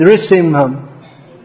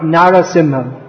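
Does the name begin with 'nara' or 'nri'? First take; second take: nri; nara. First: The name begins with a short 'nri' sound. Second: The name begins with a full 'nara' sound. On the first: The speaker calls it right. "we should sing Nrishimham" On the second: The speaker calls it wrong. "not Narasimham"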